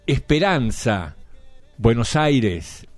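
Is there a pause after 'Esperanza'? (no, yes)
yes. There is a pause after the first word. It urges the city not to lose hope. "o puede decir Esperanza, Buenos Aires. Es decir, no te desanimes, no pierdas la esperanza"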